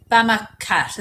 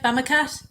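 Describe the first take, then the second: First: Said in the usual way. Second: "Bama Cat" lifted at the end as a question; questioning rise. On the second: Real, not acted. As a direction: check the name "Bama Cat" with a higher, rising tune. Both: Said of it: "is that right".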